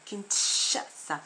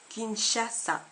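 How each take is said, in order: First: The middle consonant is a 'tch' sound. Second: The middle consonant is a soft 'sh' sound. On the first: The speaker calls it wrong. "on ne dit pas Kinshasa" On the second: The speaker calls it right. "S et H donnent ch, ch, comme dans Kinshasa"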